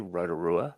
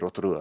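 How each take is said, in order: First: It is said with an English-style pronunciation. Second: It is said with a Māori-style pronunciation. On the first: The listener is not a Māori speaker. "if I was speaking to yourself" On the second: The listener speaks Māori. "if I was speaking to uh, sort of a a, a speaker of Te Reo Māori"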